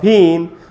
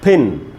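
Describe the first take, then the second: First: The vowel is a long ee sound. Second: The vowel is a short i sound. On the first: The speaker calls it wrong. "अगर मैं बोलूँगा फीन तो बड़ी ई हो जाएगा" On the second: The speaker calls it right. "ये छोटी ही है और मुझे इसको पढ़ना चाहिए फिन"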